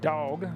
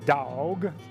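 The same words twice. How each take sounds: First: It is said plainly as one syllable. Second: It is drawled out into two syllables.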